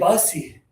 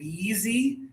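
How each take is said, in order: First: The first vowel is an uh sound. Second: The first vowel is a long high ee. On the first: "Bussy might mean too many buses" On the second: "a lot of students will say beezy"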